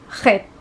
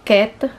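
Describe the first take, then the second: First: It begins with a rough throat sound. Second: It begins with a plain k sound. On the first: The speaker calls it right. "siya po ay chet" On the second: The speaker calls it wrong. "hindi siya ket"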